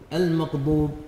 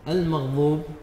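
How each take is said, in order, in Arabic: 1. تُنطق الغين قريبة من القاف. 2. تُنطق الضاد كظاء مفخّمة. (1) "نطق الغين قريبا من حرف القاف" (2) "استبدال الضاد ضاء"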